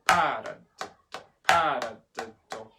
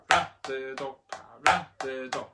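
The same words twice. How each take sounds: First: PA of Paradiddle punched loud; accent on first syllable. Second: RA of paradiddle punched; light pa, strong RA in paradiddle; accent on second syllable. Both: Shown as a demonstration. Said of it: "accent number one and number two".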